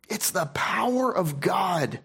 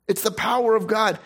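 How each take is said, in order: First: Breathy hushed whisper, slowed down. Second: Said in the usual way. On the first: Acted. Preacher whispering the verse to his congregation, hushed. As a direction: let the scripture fall to a reverent hush.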